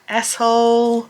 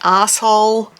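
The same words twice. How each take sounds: First: It is said with an American pronunciation. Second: It is said with an Australian pronunciation. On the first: "which is the Americanized version" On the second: "in Australia, we would say"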